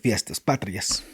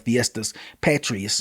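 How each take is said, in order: First: It is said with a native Spanish pronunciation. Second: It is said with an anglicized Texan pronunciation. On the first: The speaker calls it right. "but it's actually the" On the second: The speaker calls it wrong. "if you're from Texas"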